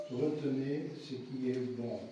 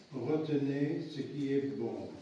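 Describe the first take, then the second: Both takes have the same delivery.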